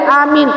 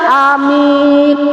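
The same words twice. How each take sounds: First: Both vowels are short. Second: Only the second vowel is long. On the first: It means safety. "A-nya pendek, min-nya pendek, I-nya pendek" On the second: It means honest. "A-nya pendek, I-nya panjang"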